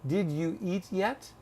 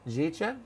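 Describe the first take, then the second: First: Each word is said separately and clearly. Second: The words run together into two syllables. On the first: The listener is treated as a non-native speaker. "knowing that you're not a native speaker of English, I would say probably to you" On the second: The listener is treated as a native speaker. "I want you to speak like you would to a native speaker"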